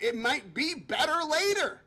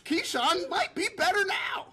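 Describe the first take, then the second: First: It might be better LATER, with later leaned on and falling; "later" set against "now"; stress on later. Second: "now" set against "later"; stress on better now. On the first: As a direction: land on "later" and let it drop. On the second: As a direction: punch "better" and lift "now". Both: Real, not acted.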